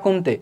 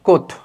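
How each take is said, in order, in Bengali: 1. নামটি শেষে 'teh' শব্দ দিয়ে পড়া হয়। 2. নামটি শেষে 'o' শব্দ দিয়ে বলা হয়। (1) "লেখা হয় কমতে" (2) "উচ্চারণ করা হয় কোত"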